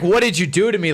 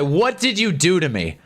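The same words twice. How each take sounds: First: It is said in an upset, accusing tone. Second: It is said dreamily, caught up in the moment.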